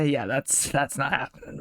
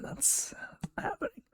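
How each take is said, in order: First: Said in the usual way. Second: Soft, breathy under-the-breath repeat; whispered aside. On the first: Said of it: "repeats it softer". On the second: Shown as a demonstration. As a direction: mutter it to yourself. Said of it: "repeated as aside".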